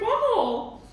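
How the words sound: It is said in a British accent.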